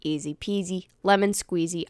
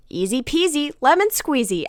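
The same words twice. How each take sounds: First: Said in the usual way. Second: Higher, louder, sing-song auto-reply; a chirpy robotic catchphrase; programmed phrase. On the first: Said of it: "I quite literally said that after every shot". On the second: Retold or imitated. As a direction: blurt it like a talking bear. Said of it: "and I immediately say".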